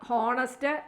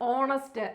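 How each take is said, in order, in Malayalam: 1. ഈ വാക്ക് h ശബ്ദത്തിലാണ് തുടങ്ങുന്നത്. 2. ഈ വാക്ക് സ്വരാക്ഷര ശബ്ദത്തിലാണ് തുടങ്ങുന്നത്. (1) "ഇവിടെ ഹോണസ്റ്റ് എന്നല്ല നമ്മൾ വായിക്കുന്നത്" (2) "ഓ എന്ന് പറയുമ്പം വവ്വൽ പ്രൊനൗൺസിയേഷനാണ് വരുന്നത്"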